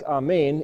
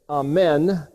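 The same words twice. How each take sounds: First: It is pronounced the Hebrew way. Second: It is pronounced the usual English way.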